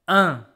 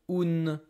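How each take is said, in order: First: It is a single nasal vowel without N. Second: It ends with an audible N consonant. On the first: The speaker calls it right. "this is only one sound, one vowel" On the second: The speaker calls it wrong. "I know it's tempting to pronounce it like an, une, un, something like this, but this N doesn't exist anymore"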